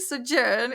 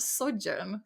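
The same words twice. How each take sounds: First: The stress is on the second syllable. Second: The stress is on the first syllable. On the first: The speaker calls it wrong. "I will be saying sojourn instead of" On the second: The speaker calls it right. "The stress is at the beginning"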